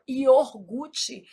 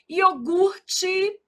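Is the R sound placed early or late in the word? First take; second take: early; late. First: The R sound is moved to the first syllable. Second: The R sound comes in the second syllable. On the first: The speaker calls it wrong. "a gente às vezes des- desloca esse R" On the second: The speaker calls it right. "o R é aqui"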